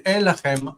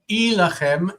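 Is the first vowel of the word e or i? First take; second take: e; i. First: The first vowel is an e sound. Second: The first vowel is an i sound. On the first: "can be either e, which I prefer" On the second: "or i"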